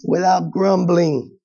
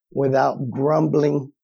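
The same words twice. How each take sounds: First: "Without grumbling" repeated slowly, stress on "without". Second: "without grumbling" read slowly, weight on "grumbling"; slow stress. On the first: Preacher repeating the verse slowly for emphasis. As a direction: dwell on "Without grumbling", slow and pointed. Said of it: "Maybe I should just keep going right there". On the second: Preacher reading the verse slowly to the congregation. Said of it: "Oh boy. Oh man". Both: Shown as a demonstration.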